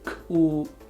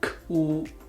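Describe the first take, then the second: Both takes have the same delivery.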